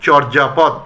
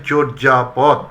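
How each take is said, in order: First: চর্যাপদ said as "chɔrjapɔd"; mistaken open vowel. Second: চর্যাপদ said slowly as "chorjapɔd"; drawn-out closed "chor" opening চর্যাপদ; correct close o. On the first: Retold or imitated. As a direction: say চর্যাপদ with an open aw, "chawr-ja-pawd". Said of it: "কিন্তু এটা চর্যাপদ হবে না". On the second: Shown as a demonstration. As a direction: say চর্যাপদ slowly with a rounded first o, "chor-ja-pawd". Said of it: "এটা হবে".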